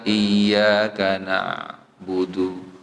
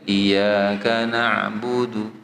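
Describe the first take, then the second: First: The y is single and the ain becomes a glottal stop. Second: The y is doubled and the ain is voiced. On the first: The speaker calls it wrong. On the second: The speaker calls it right.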